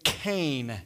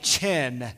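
First: The word begins with a 'k' sound. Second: The word begins with a 'ch' sound. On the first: The speaker calls it right. "it's actually kain, not chen" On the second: The speaker calls it wrong. "looks like chen"

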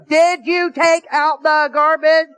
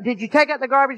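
First: The question is said loudest of all. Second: The question is said somewhat louder.

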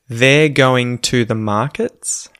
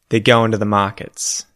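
First: Every word is said slowly and clearly. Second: Words are said fast and run together. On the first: "proper, well-enunciated, well-pronounced English" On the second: "read it quickly in, you know, colloquial Australian English"

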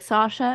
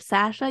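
First: The first vowel is a deep A. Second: The first vowel is a lighter A. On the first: "I say it's a deep A, like Sasha" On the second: "instead of Sasha"

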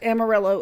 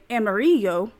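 First: The name is said with an English pronunciation. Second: The name is said with a Spanish pronunciation. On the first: The speaker calls it wrong. "the non-correct Amarillo" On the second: The speaker calls it right. "or I should say Amarillo, is yellow in Spanish"

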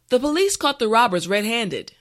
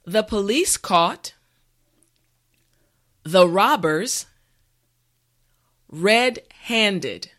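First: The sentence is said at a natural speed. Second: The sentence is said slowly and carefully. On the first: "this time we will go at a more natural pace" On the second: "this time repeat after me"

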